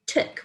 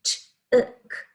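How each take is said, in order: First: Said in the usual way. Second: TOOK split into t and short ook; sounded out. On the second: Shown as a demonstration. Teacher showing the short oo sound, sounded out. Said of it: "that short oo sound".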